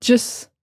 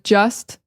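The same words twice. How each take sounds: First: "just" cut to "jus", no T; casual "just" minus its T; dropped T. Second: Said in the usual way. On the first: Shown as a demonstration. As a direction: end "just" on the S. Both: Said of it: "instead of just".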